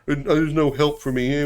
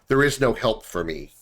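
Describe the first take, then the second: First: It is said in a whiny, self-pitying tone. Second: It is said in a plain, matter-of-fact tone. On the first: The person wants sympathy. The speaker calls it wrong. "in a pitiful way, like, oh" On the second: There is simply no solution to the issues. The speaker calls it right. "And I'm not saying that in a pitiful way"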